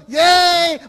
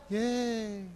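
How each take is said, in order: First: High, loud gleeful yay; excited cheer. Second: Very soft, flat mock cheer; a deflated, sarcastic yay; unenthused yay. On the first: Retold or imitated. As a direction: cheer like a thrilled teen. Youths cheer for a gimmick. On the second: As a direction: teens unimpressed by a Bible study invite. Youths hear of Bible study.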